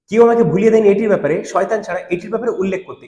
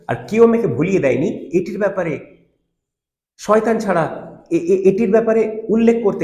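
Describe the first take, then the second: First: It is read smoothly without breaks. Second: It is read haltingly with breaks, childlike.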